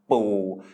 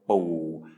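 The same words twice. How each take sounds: First: The tone is not low. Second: The tone is low. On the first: It means crab. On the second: It means paternal grandfather. "so it's low tone"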